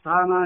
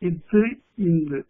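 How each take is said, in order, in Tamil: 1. ஒவ்வொரு மெய்யெழுத்துக்குப் பின் நெடில் உயிர் வரும். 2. ஒவ்வொரு மெய்யெழுத்துக்கு முன் குறில் இகரம் வரும்.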